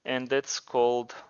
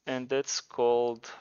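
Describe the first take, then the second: No difference in how they are said.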